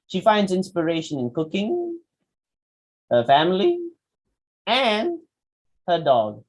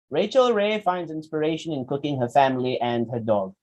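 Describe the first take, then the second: First: "cooking", "family", "and" held high, pausing after each, "dog" drops; list with commas. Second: "cooking, her family, and her dog" run together, falling; read without pauses. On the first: Teacher showing the missing commas, rising list with pauses. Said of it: "Commas are missing". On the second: Teacher reading the line as written, run together without pauses. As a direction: run through the list with no comma breaks. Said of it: "As it is written". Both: Shown as a demonstration.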